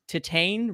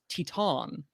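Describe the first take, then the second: First: The title is given an English-style pronunciation. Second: The title is given a French-style pronunciation. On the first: The speaker calls it wrong. "we've been pronouncing uh, Titane wrong" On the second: The speaker calls it right. "It's Teton"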